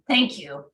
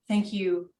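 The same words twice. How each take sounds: First: It is said in a put-on character voice. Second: It is said in the speaker's normal voice.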